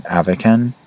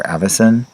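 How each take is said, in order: First: AVICAN with a hard k sound in the middle; Avican, hard c, trying it out; tentative pronunciation. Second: AVICEN with a soft s sound in the middle; Avicen, soft c, offered as an alternative; alternative pronunciation. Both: Shown as a demonstration. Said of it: "I don't know how to say this".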